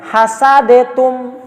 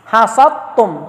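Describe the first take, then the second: First: Hasadetum drawn out slowly with separate d; wrong reading. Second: Hasattum with d merged into a doubled t; correct reading. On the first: Teacher demonstrates the wrong reading slowly, hasadetum. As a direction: say hasadetum slowly, keeping the d and t apart. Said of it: "hasadetum jangan". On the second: Teacher models the correct hasattum to students. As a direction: say hasattum slowly, d swallowed into tt. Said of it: "Tetap hasattum". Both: Shown as a demonstration.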